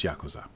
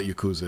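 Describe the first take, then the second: First: Yakuza with a "yak" first syllable; correct pronunciation. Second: Yakuza with a "yuh" first syllable; wrong pronunciation. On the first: Showing how to pronounce the title, Yakuza as YAK-uza. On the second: Showing how not to pronounce the title, Yakuza as yuh-KOO-za. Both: Shown as a demonstration. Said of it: "That's how you pronounce it".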